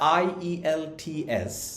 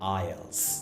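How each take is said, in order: First: Every letter, including the E, is sounded. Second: The E is dropped, giving ai-el-ti-es. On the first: This is how the name is written. "যদিও এটা আইইএলটিএস" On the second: This is how people actually say it. "এই জিনিসটাকে আমরা উচ্চারণ করি আইএলটিএস হিসেবে"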